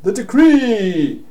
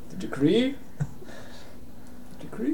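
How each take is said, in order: First: High, loud wail with DECREE drawn out; desperate shout. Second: Higher, rising, hopeful query; bewildered question. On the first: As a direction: call after them in dismay. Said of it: "he shouts off". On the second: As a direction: ask it small and puzzled, without shouting. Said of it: "He looks at you". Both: Acted.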